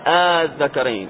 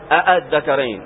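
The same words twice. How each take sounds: First: The second hamza becomes a long drawn vowel. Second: Both hamzas are pronounced fully. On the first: The speaker calls it right. "أو أنهم يمدون" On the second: The speaker calls it wrong. "ما تقول الذكرين، لم يتكلم بهذا العرب"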